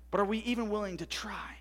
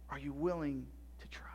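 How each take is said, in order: First: Said in the usual way. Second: Breathy whispered question, barely any voice. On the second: Real, not acted. Pastor asking the fathers again, in a whisper. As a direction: lean in and whisper the challenge.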